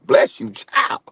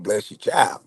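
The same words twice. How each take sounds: First: Breathy whispered bless you. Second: Said in the usual way. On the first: Acted. Man to friend, blessing whispered as mock warning. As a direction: drop it to a whisper, half joking.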